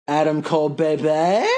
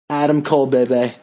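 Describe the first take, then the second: First: It is said with more enthusiasm. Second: It is said with little enthusiasm.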